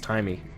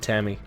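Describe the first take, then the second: First: The first vowel sounds like 'tie'. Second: The first vowel sounds like 'tam'. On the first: The speaker calls it right. "I think it's Timey" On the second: The speaker calls it wrong. "not Tammy"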